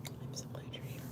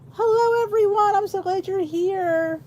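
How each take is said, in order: First: Whispered welcome. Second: Cheerful greeting. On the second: Host welcomes viewers joining the live, high and glad. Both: Real, not acted.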